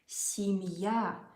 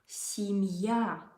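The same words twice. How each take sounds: First: The stress is on the last syllable. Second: The same.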